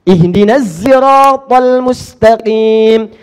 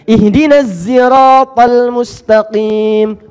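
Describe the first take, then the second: First: Siratal begins with a z sound. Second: The same.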